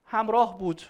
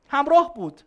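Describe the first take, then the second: First: Said in the usual way. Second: همراه بود said much louder and higher, hitting همراه; stressed repeat. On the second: Shown as a demonstration. Teacher repeats the answer to the class, loud and high on همراه. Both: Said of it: "چی بود؟".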